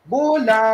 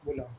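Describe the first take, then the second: First: The word is said with exaggerated articulation. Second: The word is said with minimal articulation. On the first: The speaker calls it right. "dia kena lebih-lebih kan" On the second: The speaker calls it wrong. "Tak nampak mulut gerak pun"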